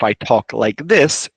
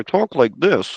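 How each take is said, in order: First: It is spoken slowly with a wide-open mouth. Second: It is spoken fast with little mouth opening. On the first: It is easier to understand. The speaker calls it right. "it becomes much more understandable" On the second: It is harder to understand. The speaker calls it wrong. "it's still English, but it's much harder for you to understand"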